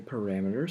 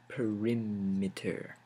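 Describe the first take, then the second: First: The second syllable sounds like 'ram'. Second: The second syllable sounds like 'rim'. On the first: The speaker calls it wrong. "I say parameter" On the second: The speaker calls it right. "I think that's a better pronunciation"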